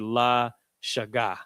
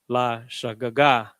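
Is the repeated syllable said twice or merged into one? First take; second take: merged; twice. First: The doubled syllable flows together as one. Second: The doubled syllable is said twice, separately.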